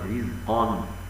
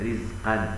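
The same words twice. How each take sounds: First: The q sound is heavy and raised. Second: The q sound is light and thin. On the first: The speaker calls it right. "والصواب رزقا" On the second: The speaker calls it wrong. "ويستفيدون القاف من كلمة رزقا، هكذا"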